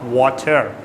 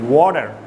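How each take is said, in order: First: The middle consonant is a crisp T sound. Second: The middle consonant is a soft D-like sound. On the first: The speaker calls it wrong. "Not water" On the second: The speaker calls it right. "It's more of a D sound rather than a T sound"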